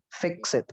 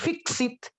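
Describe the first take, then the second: First: The vowel in fix is an 'eh'-like sound. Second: The vowel in fix is a tense 'ee'. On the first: The speaker calls it right. "Pakai suara e" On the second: The speaker calls it wrong. "Ini bukan fix it"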